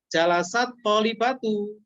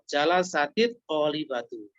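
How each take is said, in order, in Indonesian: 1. Huruf t terakhir menyambung tanpa tambahan vokal. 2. Huruf t terakhir diberi tambahan vokal i. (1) "jadi bukan jalasat tolibatu. Kalau jalasat tolibatu seolah-olah tidak ada alif lamnya" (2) "Tapi caranya di kasroh"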